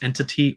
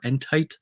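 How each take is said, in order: First: The word ends with a 'tee' sound. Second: The word ends with a 'tight' sound. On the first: It is read like the ordinary word entity. "it could be entity" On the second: It is read literally from the spelling. "based on the spelling of it, I'm saying entite"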